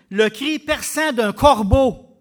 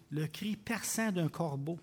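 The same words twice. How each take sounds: First: Slow and much louder on corbeau; 1 piercing emphasis. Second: Softer, slow, with a rise on perçant; 1 quiet restatement. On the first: Preacher describing the blind man's cry, loud and slow. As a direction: make the cry ring out. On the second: Preacher repeating the Greek meaning, quiet and slow. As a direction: say it low and deliberate. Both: Real, not acted.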